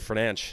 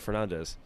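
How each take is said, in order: First: The name ends with a sh-like sound. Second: The name ends with a plain s sound. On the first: "as Derek Ray and Lee Dixon say it in FIFA ... like an S C H kind of sound at the end" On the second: "instead of"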